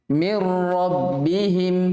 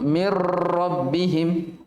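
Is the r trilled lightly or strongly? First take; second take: lightly; strongly. First: The r is trilled with ordinary vibration. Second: The r is trilled with excessive vibration. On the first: The speaker calls it right. "biasa saja" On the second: The speaker calls it wrong. "jangan terlalu"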